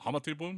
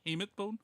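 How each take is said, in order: First: Hamate is said like a Japanese word. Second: Hamate is said like an English word. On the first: The speaker calls it wrong. "I keep wanting to pronounce it as hamate because it looks like a Japanese word" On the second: The speaker calls it right. "No, no, ha- hamate"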